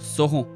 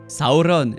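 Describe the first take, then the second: First: The R is French and the ending nasal. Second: The R is rolled and the ending fully pronounced. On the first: The speaker calls it wrong. "et non" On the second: The speaker calls it right. "les R sont roulés et la plupart des syllabes de fin sont prononcées entièrement"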